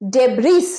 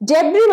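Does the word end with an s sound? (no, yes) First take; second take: yes; no. First: The word ends with an s sound. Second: The word ends on a vowel, no s sound. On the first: The speaker calls it wrong. "ডেব্রিস নয়" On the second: The speaker calls it right. "এসটা silent"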